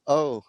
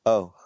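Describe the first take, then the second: First: "Oh" pitched high, an off-target imitation; a misjudged, high-pitched "Oh"; bad take of "oh". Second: "Oh" at normal pitch, louder; corrected "oh". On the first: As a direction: mimic their "Oh" too high. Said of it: "that was a bad oh". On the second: Retold or imitated. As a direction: mimic their "Oh" without lifting the pitch. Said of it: "Not like, "Oh, that was a bad oh".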